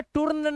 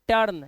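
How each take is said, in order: First: टर्न read as toorn with an oo; wrong reading. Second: टर्न said as tern; right reading. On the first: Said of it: "इसे टर्न नहीं पढ़ना है". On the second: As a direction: clear correct टर्न. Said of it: "यह है टर्न". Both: Shown as a demonstration.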